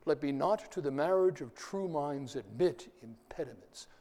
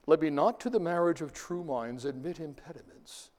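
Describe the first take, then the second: First: "Let me not to the marriage" read with every second syllable leaned on, softly; iambic stresses marked. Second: Said in the usual way. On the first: Shown as a demonstration. Teacher showing the class each stressed beat. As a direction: tap out the da-dun beat on "marriage", "true", "minds". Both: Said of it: "but the stresses".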